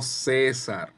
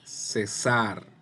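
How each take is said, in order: First: The stress is on the first syllable. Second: The stress is on the last syllable. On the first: It is the personal name. The speaker calls it wrong. "no César, no el nombre" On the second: It is the verb meaning to stop. The speaker calls it right. "zar es la sílaba tónica"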